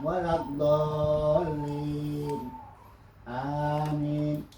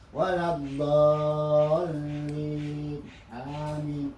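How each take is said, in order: First: There is a fairly long pause before amin. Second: Amin follows with no pause in between. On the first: The speaker calls it right. "ada berhenti yang agak agak panjang" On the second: The speaker calls it wrong. "Jangan dibaca ... Kurang baik gitu"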